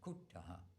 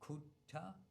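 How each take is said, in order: First: The word ends with an echoed 'ha' sound. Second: The word ends without an echoed 'ha' sound. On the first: "H with a dot under, it's kuttaha" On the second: "if it's like kutta"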